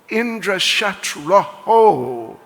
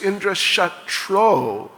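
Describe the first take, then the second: First: The second word ends with an added 'ho' sound. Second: The second word ends in a plain 'o' sound. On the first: One whose enemy is Indra, one who can be killed by Indra. The speaker calls it wrong. "they mispronounced it as Indra Shatroho, Visarga, Oho" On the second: The enemy of Indra, one who can kill Indra. The speaker calls it right. "Instead of just Indra Shatro"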